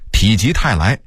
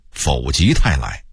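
First: Said in the usual way. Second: 否极泰来 with 否 as fǒu, not pǐ; misreading of 否. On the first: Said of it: "我也很长时间念否极泰来". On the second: Shown as a demonstration. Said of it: "我也很长时间念".

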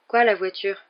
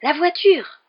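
First: Much more restrained, questioning echo; puzzled question. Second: High, loud burst on a sudden idea; excited exclamation. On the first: Friend answering the sudden idea, puzzled. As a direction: query it without the excitement. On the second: Boy revealing his idea to his friend, exclaiming excitedly. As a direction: cry it out, VOITURE leaping up. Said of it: "s'exclama Ron, le regard soudain brillant". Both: A narrator's reading.

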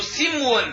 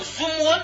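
First: سمو said slowly as "simwun"; kasra on the س. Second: سمو said as "sumwun"; damma on the س. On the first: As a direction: open سمو with a short i: sim-wun. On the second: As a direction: open سمو with a short u: sum-wun. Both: Shown as a demonstration. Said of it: "بكسر السين أو ضمها".

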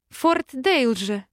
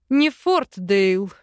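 First: Slow, giggly name; giggling. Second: Slow, louder laughing correction; chuckling. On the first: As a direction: giggle the name out, tipsy with joy. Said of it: "хихикнула". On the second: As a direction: laugh it off teasingly. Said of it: "хохотнул Арван". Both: Acted.

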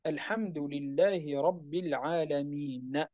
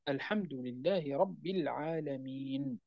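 First: Slow Quranic recitation, flowing on; recited without pausing. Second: Soft, slow recitation, the final نون of العالمين stopped silent; pausal stop on the last word. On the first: Teacher reciting for students, slow and flowing. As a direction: recite it slowly as one phrase. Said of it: "كيف نقرأها؟". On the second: Teacher showing students how to stop at a verse end. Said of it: "كيف نقرأها؟ / عند الوقف عليها نقف بالسكون". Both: Shown as a demonstration.

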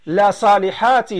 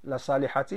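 First: Slow, with a laugh in the voice; amused teacher repeating the joke. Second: Said in the usual way. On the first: Acted. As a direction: chuckle through the example, slowly.

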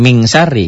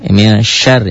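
First: MIN turned into a full MING before SYARI; wrong full NG. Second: MIN with a blurred N still heard before SYARI; veiled N kept. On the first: Teacher showing pupils the reading to avoid, over-done NG. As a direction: say MIN as MING, losing the N entirely. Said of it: "nggak min syari gitu ya". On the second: Teacher correcting the reading for pupils, veiled N. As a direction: keep a veiled N in MIN, short of a full NG. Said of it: "ada N-nya tetap". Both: Shown as a demonstration.

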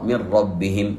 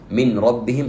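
First: من ربهم with a doubled ra; nun fully merged into the ra; correct reading. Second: من ربهم with the nun kept before the ra; nun said apart, rising; wrong reading. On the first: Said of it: "هذا هي الصواب". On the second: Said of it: "خطأ". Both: Shown as a demonstration.

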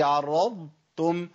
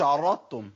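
First: عرضتم very slowly, full ض then a clear ت; عرضتم with ض and ت kept apart; correct separated dad. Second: عرضتم with ض dropped into ت, like aratum; عرضتم said as two ت sounds; wrong merged dad. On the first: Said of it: "هي". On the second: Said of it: "ما اقولش". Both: Shown as a demonstration.

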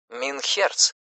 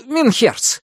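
First: Said in the usual way. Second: Минхерц said high and falling, in Menshikov's voice; Минхерц called out brightly in the character's voice. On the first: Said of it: "Искажённый немецкий от Майнхерц". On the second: A narrator's reading. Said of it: "запыхавшийся Меньшиков". (Минхерц высоким голосом персонажа)

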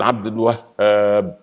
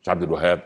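First: عبد الوهاب slowly, with the هـ in الوهاب doubled; correct doubled h. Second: عبد الوهاب quick, with a single light هـ; wrong single h. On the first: Preacher showing the correct name: عبد الوهاب, slow doubled هـ. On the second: Preacher mocking the common mistake: عبد الوهاب, single هـ. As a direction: toss off عبد الوهاب with no doubling on the هـ. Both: Shown as a demonstration. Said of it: "ولما ننطقها لازم نقول".

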